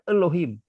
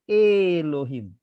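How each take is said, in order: First: The first vowel is a reduced schwa sound. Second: The first vowel is a plain, clear E. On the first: The speaker calls it wrong. "jangan dibaca Elohim, ya. Salah" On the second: The speaker calls it right. "jadi ini tetap akan dibaca Elohim"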